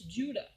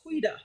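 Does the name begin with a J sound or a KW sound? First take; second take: J sound; KW sound. First: The name begins with a J sound. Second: The name begins with a KW sound. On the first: The speaker calls it right. "but it's Judah. That's the pronunciation" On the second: The speaker calls it wrong. "I was thinking it was Quida"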